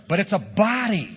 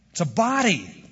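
First: But it's A body, said higher with a falling end; stress on a body, higher. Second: It's a BODY, with body hit and falling; stress on body. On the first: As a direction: push the whole phrase "a body" up and land it. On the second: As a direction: lean on the noun body. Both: Shown as a demonstration. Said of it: "emphasize the adjective and not the noun".

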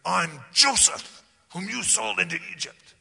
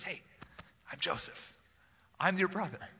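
First: Accusing. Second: Kind and tender. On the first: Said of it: "I don't think he said". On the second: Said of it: "It was a kind and tender-hearted communication". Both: Shown as a demonstration.

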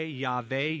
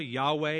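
First: "Yahweh" said with a V, YAH-vay; "Yahweh" as YAH-vay, V not W; pronounced with V. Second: "Yahweh" said with a W, YAH-way; "Yahweh" as YAH-way, W not V; pronounced with W. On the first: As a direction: say "Yahweh" with a v sound in place of the w. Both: Shown as a demonstration. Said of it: "how it's pronounced".

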